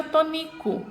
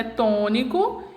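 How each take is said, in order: First: "tônico" said as to-NI-co; "tônico" without the accent, stressed on NI; stress on penultimate syllable. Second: "tônico" with a strong TÔ; stress on first syllable. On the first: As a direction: move the weight in "tônico" onto the middle syllable NI. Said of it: "e se pronuncia". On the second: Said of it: "Então, eu pronuncio". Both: Shown as a demonstration.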